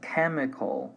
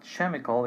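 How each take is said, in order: First: It begins with a 'k' sound. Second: It begins with a 'ch' sound. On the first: The speaker calls it right. "the pronunciation is like a, a K" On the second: The speaker calls it wrong. "so it's not chemical"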